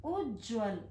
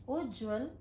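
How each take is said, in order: Both takes have the same delivery.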